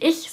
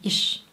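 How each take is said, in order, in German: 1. Das Wort endet auf einen weichen 'ch'-Laut. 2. Das Wort endet auf einen 'sh'-Laut. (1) "Man sagt da nicht Ich" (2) "der Ich-Laut ganz häufig als Sch ausgesprochen"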